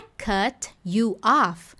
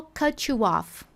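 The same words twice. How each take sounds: First: "cut you off" very slow, T and you kept apart; slow, separated "cut you off"; unlinked. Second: "cut you off" slow, T and you blended to "cutchu"; slow "cutchu off" as the native said it; linked cutchu. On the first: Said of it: "não é". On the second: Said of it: "Por que que ele falou". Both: Shown as a demonstration.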